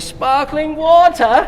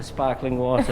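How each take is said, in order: First: "Sparkling water" stretched slowly, high and loud; over-enunciated repeat. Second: Said in the usual way. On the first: Retold or imitated. Customer repeating "Sparkling water" to baffled barista, slow and loud. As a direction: spell out "Sparkling water" for someone not understanding. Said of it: "I say". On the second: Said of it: "Every time at Starbucks".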